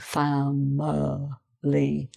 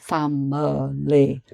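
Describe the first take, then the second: First: The word is said slowly and drawn out. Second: The word is said at normal speed.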